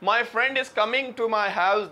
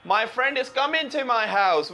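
First: The final g of 'coming' is clearly pronounced. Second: The final g of 'coming' is dropped. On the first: "देखें मैं अभी जी बोलता हूं पहले" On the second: "अब देखें जी साइलेंट होगा, ब्रिटिश कैसे साइलेंट करते हैं"

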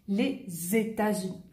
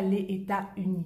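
First: États joins Unis with a z sound. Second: États and Unis are said without a z link. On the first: The speaker calls it right. "je dis les États-Unis" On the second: The speaker calls it wrong. "je ne dis pas les États-Unis, non"

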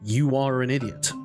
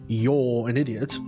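First: The R sound is pronounced hard, American style. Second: The R sound is soft and barely pronounced. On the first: "you have to say you are an idiot, like an American" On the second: "instead of saying you're"

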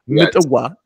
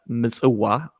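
First: The middle consonant is a harsh T sound. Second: The middle consonant is a harsh S sound. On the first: This is an Amharic form. The speaker calls it wrong. "some Amharic speakers cracks me up" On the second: This is the original form. The speaker calls it right. "The port city in Eritrea, Misuwa"

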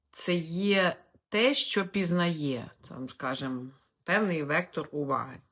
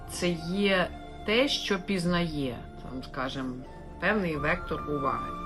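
No difference in how they are said.

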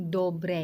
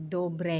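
No difference in how they are said.

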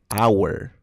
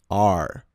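First: It sounds like 'hour', with a full diphthong. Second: It sounds like 'are', a single drawn-out R. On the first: The speaker calls it wrong. "Dicen our, our. Y no es así" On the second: The speaker calls it right. "Se pronuncia como are"

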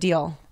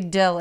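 First: The vowel is long, so the word sounds like 'deal'. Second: The vowel is short, so the word sounds like 'dill'. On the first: "instead of deal" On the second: "It's like how you say dill instead of deal"

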